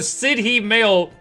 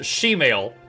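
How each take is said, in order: First: The first word sounds like 'city'. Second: The first word sounds like 'she'. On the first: The speaker calls it wrong. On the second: The speaker calls it right. "Pronounced she"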